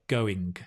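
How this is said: The final g is clearly pronounced. This is the Northern English way. "In Northern England, we say, we pronounce the g"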